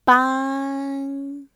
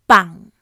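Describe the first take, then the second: First: The syllable has a high level pitch. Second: The syllable has a low falling, creaky pitch. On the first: It means to help. "High pitch" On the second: It means to carry a funeral. "Low falling pitch. Creaky"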